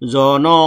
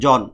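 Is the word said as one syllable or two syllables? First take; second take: two syllables; one syllable. First: It is two open syllables ending in a vowel. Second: It is one closed syllable ending in n. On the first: "হস্টিন না দিলে হয়ে যাবে দুইটা" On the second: "জন হচ্ছে একটা বদ্ধাক্ষর"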